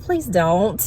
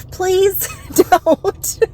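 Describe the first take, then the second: First: Said in the usual way. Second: Laughing through the words; breaking into laughter. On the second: Retold or imitated. Thinking it, then cracking up.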